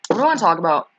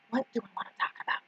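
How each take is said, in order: First: Said in the usual way. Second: Rushed whispered repeat of the question; fast whisper. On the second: Shown as a demonstration. Streamer whispers the question to herself, quick and hushed. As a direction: whisper it quickly under your breath.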